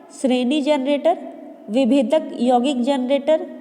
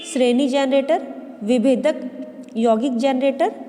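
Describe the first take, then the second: The two takes are said the same way.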